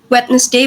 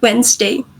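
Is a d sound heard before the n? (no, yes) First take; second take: yes; no. First: A d sound is heard before the n. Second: No d sound is heard before the n. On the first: The speaker calls it wrong. "in many dialects we do not pronounce it at, as Wednesday" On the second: The speaker calls it right. "they remove the D and turns it into like ns"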